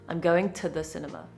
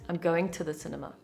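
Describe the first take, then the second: The two takes are said the same way.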